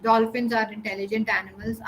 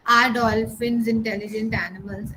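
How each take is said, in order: First: Dolphins are intelligent animals read as a flat statement falling at the end. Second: Are dolphins intelligent animals asked with a rising question tune. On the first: Teacher showing the wrong reading to the class, flat falling statement. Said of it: "I read it like this". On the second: Teacher reading a question aloud to the class, rising question tune. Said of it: "if I'm reading a question". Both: Shown as a demonstration.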